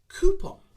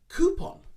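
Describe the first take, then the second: First: It begins with a long 'koo' sound. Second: It begins with a long 'koo' sound.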